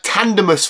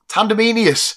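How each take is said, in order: First: The name ends in a short 'mus' sound. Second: The name ends in a longer 'menius' sound. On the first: "like Tandemus" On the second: "I was calling it Tandemenius"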